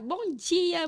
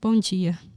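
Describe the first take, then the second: First: It sounds cheerful and energetic. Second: It sounds flat and unenthusiastic.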